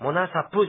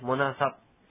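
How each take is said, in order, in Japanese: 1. 最後のpは母音がついて、はっきり発音されます。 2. 最後のpは、ほとんど聞こえません。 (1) "モナサプじゃないんですね" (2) "プがほとんど聞こえないような発音です"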